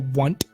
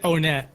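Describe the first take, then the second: First: The name is said to rhyme with want. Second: The name does not rhyme with want. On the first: "don't you mean like on it or a want?" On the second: "I always pronounce it Onet"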